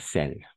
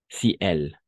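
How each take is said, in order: First: The vowel of si is dropped, one syllable. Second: Both vowels are said, as two separate words. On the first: The speaker calls it wrong. "et pas celle" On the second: The speaker calls it right. "on ne fait pas l'élision pour les autres voyelles"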